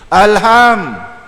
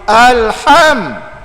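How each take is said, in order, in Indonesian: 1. Bunyi h itu ringan, biasa, dan berhembus. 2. Bunyi h itu kuat, berhembus dari tenggorokan. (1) "alham tu he tu bukan ha" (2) "kalau dari segi makhraj dia nak alham"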